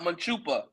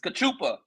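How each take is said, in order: First: The word begins with an M sound. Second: The word begins with a K sound. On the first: The speaker calls it wrong. "it's not Manchupa" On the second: The speaker calls it right. "it's Cachupa"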